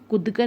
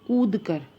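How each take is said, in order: First: The vowel in the first word is short. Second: The vowel in the first word is long. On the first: The speaker calls it wrong. "कभी भी हम कूद कर नहीं बोलते" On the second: The speaker calls it right. "बड़े ऊ वाली ही साउंड हमारी सही होती है"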